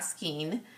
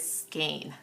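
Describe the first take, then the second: First: The vowel sounds like 'ee' as in 'seen'. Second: The vowel sounds like 'ay' as in 'rain'. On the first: The speaker calls it wrong. "not skeen" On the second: The speaker calls it right. "it is skein"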